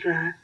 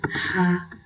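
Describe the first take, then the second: First: It starts with a quick tapped r. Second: It starts with an h-like breathy sound. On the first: The R stands in the middle of a word. "in the middle of the word, after a vowel" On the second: The R stands at the beginning of a word. "You have the sound like H"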